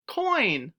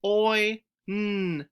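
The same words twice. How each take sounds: First: Said in the usual way. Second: Sounded out phoneme by phoneme; stretched sounds. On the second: Shown as a demonstration. Teacher sounding out the changed word. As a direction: pull each sound apart. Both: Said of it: "Let's try it".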